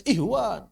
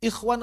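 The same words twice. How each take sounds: First: Mock misreading "ihwan", no rasp. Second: "Ikhwan" with a rasped kh; kh sound. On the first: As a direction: say "ihwan" with h in place of kh. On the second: Shown as a demonstration. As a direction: correct "Ikhwan", friction at the back of the mouth. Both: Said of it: "kadang-kadang dibaca ihwan".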